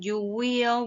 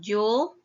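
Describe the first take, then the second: First: Both words are said fully and separately. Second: The words are contracted into one syllable. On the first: "Instead of saying you will" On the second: "we have you'll"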